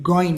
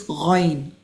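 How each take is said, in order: First: It starts with a hard g sound. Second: It starts with a gargled upper-throat sound. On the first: The speaker calls it wrong. "don't confuse it with G, like goin" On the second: The speaker calls it right. "Make sure it's coming from the upper throat"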